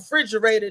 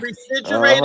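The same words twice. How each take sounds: First: The word starts without the 're' syllable. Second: The word starts with the full 're' syllable. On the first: "They take the re right off" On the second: "we don't say"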